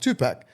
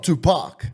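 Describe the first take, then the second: First: The name is said with an Australian accent. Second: The name is said with an American accent. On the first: "being an Australian and having an Australian accent, you say Tupac like Tupac" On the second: "not Tupac"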